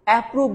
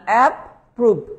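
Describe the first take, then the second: First: The word is said smoothly without a break. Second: The word is split with a break after app. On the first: "আমরা বলি approve না" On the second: "ভেঙে ভেঙে করবেন"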